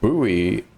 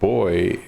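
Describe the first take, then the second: First: The word is said with an American pronunciation. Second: The word is said with a British pronunciation. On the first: "buoy is the American pronunciation" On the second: "boy is the British pronunciation"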